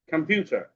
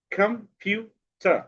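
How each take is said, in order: First: Said in the usual way. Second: "computer" slow and higher, three separate beats; split into syllables. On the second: Shown as a demonstration. Teacher dividing a word for pupils, "computer" split slowly. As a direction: pause between the syllables of "computer". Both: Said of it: "সিলেবালের মাধ্যমে শব্দ ভাগ".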